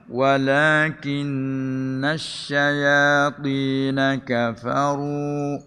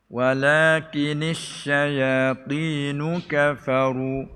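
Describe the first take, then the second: First: The n is doubled and followed by an a vowel. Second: The n is single and followed by an i vowel. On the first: This is the reading of the majority. "ni qiraat jumhur" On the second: This is an alternative minority reading. "baca dengan takfif"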